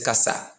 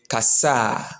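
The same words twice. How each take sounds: First: The final vowel is short. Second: The final vowel is stretched long. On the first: It is in the present tense. "the present tense is kasa" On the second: It is in the past tense. "if it is in the past, we go with kasa"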